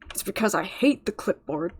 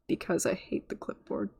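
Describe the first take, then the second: First: It is said in an upbeat tone. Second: It is said in a depressed tone.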